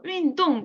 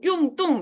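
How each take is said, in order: First: The first syllable sounds like 'yun'. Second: The first syllable sounds like 'yong'. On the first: The speaker calls it right. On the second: The speaker calls it wrong.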